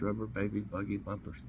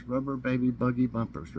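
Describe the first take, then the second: First: Fast, softer rattle of the tongue twister. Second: Said in the usual way. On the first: Shown as a demonstration. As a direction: race through the twister quickly. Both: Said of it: "Try to say that three times fast".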